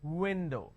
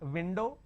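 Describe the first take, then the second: First: The first sound is made with rounded lips. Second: The first sound is made with a bitten lip. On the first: The speaker calls it right. "you will make an O" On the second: The speaker calls it wrong. "It's not window"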